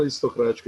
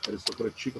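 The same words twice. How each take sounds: First: Said in the usual way. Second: Soft "Aristocrática" as a-ris-to-cra-TI-ca; stress moved to TI. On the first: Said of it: "palavra aristocrática". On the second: Shown as a demonstration. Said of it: "ela teria que ser paroxítona". ("Aristocrática" com a tônica no TI, mais baixo)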